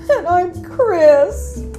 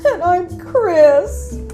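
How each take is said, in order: First: It is said in a sad way. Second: It is said in a sad way.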